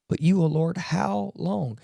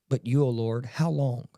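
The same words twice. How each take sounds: First: Louder and higher, crying out to God; David begging God, retold as an anguished cry; pleading cry. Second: Said in the usual way. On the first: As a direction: cry the question out like a desperate plea. Voicing David's plea to God.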